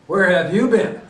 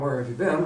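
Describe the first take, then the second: First: It sounds like a harsh, accusing interrogation. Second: It sounds like a neutral, curious question.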